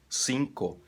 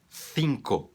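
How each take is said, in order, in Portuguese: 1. O primeiro som é um s simples e sibilante. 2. O primeiro som é feito com a língua entre os dentes. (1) "como um A C normal, como em outros países que não seja na Espanha" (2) "na Espanha esse C soa, se pronuncia com a língua entre os dentes"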